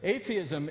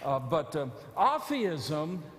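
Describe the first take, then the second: First: The word is said with its usual pronunciation. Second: The prefix is said separately before theism. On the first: Believing there is no God. "Atheism is the idea that there is no God" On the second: Living as if there is no God. "it's just the alpha privative in front of theist"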